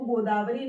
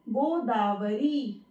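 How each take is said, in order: First: The vowel after r is short. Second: The vowel after r is long. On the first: The speaker calls it wrong. "गोदावरी नहीं होता" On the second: The speaker calls it right. "र पर ई की मात्रा आएगी"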